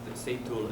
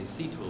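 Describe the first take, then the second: First: The name is pronounced the Spanish way. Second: The name is pronounced the English way. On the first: "Seitul as in, in Spanish" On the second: "in English we say Situl"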